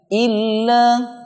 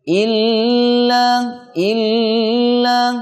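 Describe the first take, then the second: First: The L sound is short and pressed. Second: The L sound is stretched out long. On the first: The speaker calls it right. "Seharusnya tidak dipanjangkan tapi ditekan" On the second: The speaker calls it wrong. "huruf lamnya jangan dipanjangkan... ini cara baca yang tidak tepat"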